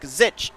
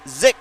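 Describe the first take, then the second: First: The surname ends with a 'ch' sound. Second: The surname ends with a 'k' sound. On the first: The speaker calls it wrong. "I have been pronouncing his name wrong" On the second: The speaker calls it right. "His name is Patrick Zick"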